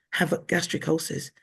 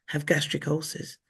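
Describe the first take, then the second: No difference in how they are said.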